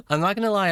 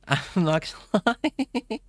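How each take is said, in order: First: Said in the usual way. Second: High, helpless laughing words; real giggle overtaking the words. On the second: Real, not acted. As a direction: break up laughing while speaking. Cracking up at own accent idea.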